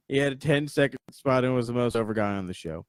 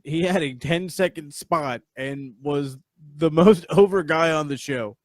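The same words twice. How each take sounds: First: Said in the usual way. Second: Laughing through it, louder on over; louder, laughing take of the praise. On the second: Real, not acted. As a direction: break into laughter mid-line.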